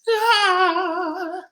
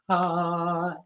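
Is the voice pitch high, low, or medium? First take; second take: high; medium. First: It is said at a high pitch. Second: It is said at a medium pitch. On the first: "and our high voice" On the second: "and our medium voice"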